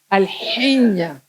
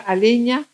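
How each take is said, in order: First: A harsh throaty sound follows the L. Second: The L runs straight into the vowel.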